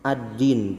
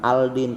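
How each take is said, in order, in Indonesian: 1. L menyatu ke dalam bunyi D yang ganda. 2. Bunyi L yang jelas terdengar sebelum D. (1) "tapi ad-din" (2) "bukan aldin"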